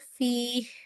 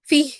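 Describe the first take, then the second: First: The final h sound is held a moment longer. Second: The final h sound is cut off abruptly. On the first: The speaker calls it right. "हा की ना जो आवाज है वो कंटिन्यू रह रही है" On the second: The speaker calls it wrong. "फी ऐसे नहीं पढ़ी जाएगी"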